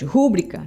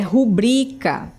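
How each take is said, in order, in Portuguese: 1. O acento está na primeira sílaba. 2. O acento está na segunda sílaba. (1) "Como se o acento tônico fosse no ru" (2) "O acento tônico é no bri e não no ru"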